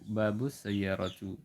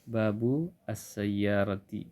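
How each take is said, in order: First: The last word ends with an -u vowel. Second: The last word ends with an -i vowel. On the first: The speaker calls it wrong. "Letak salahnya adalah harakat kata as-sayyarah" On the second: The speaker calls it right.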